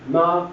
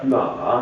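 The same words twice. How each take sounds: First: It is said with the first tone. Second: It is said with the third tone. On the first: It means mother. "Ma is first tone" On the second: It means horse. "ma means horse"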